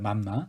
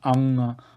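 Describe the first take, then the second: First: It is said with the lips closing normally. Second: It is said with the lips kept apart.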